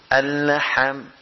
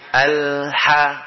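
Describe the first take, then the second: First: The lam is released first and bounces. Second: The lam flows straight into the next letter. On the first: The speaker calls it wrong. "Kalau dilepas dulu dia mantul" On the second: The speaker calls it right.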